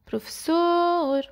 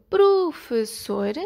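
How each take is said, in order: First: "Professor" with a long, high "sor"; "Professor", last syllable held high; final syllable stressed. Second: "professor" split into slow separate syllables; "professor" broken up evenly for counting. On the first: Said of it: "sor, é acentuada". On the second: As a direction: sound out "professor" in beats. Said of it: "O exemplo". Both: Shown as a demonstration.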